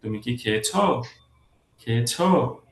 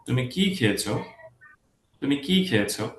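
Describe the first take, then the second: First: "খেয়েছো" lifted up on its last syllable; higher pitch at end. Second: "কি" raised, "খেয়েছো" falling away; lower pitch at end. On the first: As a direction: ask yes or no, letting "খেয়েছো" climb. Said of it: "higher pitch হয়ে যাচ্ছে". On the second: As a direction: stress "কি" and let "খেয়েছো" sink. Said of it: "খেয়েছোতে যে এটা lower হয়ে যাচ্ছে". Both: Shown as a demonstration.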